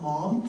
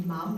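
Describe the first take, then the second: First: "mom" the American way, like "mahm"; American pronunciation. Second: "mum" as Australians say it, rhyming with sum; Australian pronunciation. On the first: Mother rejecting the American word, "mom" with open vowel. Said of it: "not mom". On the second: Mother on her baby's first words, "mum" with Australian vowel. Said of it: "she's just starting to say mum". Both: Shown as a demonstration.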